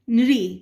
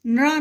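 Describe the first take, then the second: First: नृ said loud as "nri"; i-ending pronunciation. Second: नृ said as "nra", with an a sound; wrong a-ending pronunciation. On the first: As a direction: model नृ firmly, ending in "ee". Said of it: "इ से लगा हुआ sound निकलता है". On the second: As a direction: end नृ on "aa" instead of "ee". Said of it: "नहीं बोला जाता है". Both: Shown as a demonstration.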